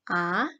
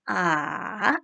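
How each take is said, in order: First: The pitch rises quickly and briefly. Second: The pitch falls and then rises. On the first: "nada dua, itu naik ke atas" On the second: "kalau nada ketiga, kita turun lalu naik"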